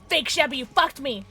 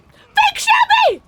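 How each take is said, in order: First: Slightly raised, aggrieved cry; betrayed complaint. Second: Very high, loud, drawn-out shriek; betrayed scream. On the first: Player blaming Fake Shabby for the hit, aggrieved complaint. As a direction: say the name accusingly, well short of screaming. Same name again, after the scream. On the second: Player betrayed by Fake Shabby, outraged high scream. Screams at the impostor who hurt her. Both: Real, not acted.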